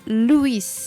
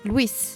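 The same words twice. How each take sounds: First: The name is said with two syllables. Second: The name is said with one syllable. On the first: The speaker calls it right. "Il y a deux syllabes" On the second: The speaker calls it wrong. "les Français le prononcent en une syllabe"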